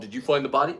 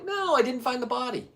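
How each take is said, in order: First: Said in the usual way. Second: High exasperated denial. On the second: Retold or imitated. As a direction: stress NO, pitched much higher and falling. Retold denial, high pitch.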